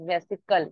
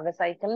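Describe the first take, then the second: First: The second syllable has a short 'ih' vowel. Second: The second syllable has a long 'eye' vowel. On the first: The speaker calls it right. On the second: The speaker calls it wrong. "वेसाइकल नहीं"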